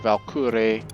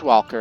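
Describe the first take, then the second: First: The name begins with a V sound. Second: The name begins with a W sound. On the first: "the W is supposed to be pronounced like all Germanic, so it's just a V" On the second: "it's it's Walker. I'm American"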